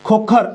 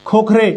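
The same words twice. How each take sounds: First: खोखर with no final e, ending on r; खोखर, no trailing vowel; said as Khokhar. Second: खोखरे ending on a clear e; खोखरे, final e sounded; said as Khokhre. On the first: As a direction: say खोखर clipped at the r. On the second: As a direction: finish खोखरे with an open e. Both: Shown as a demonstration. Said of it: "अब इधर से देखो".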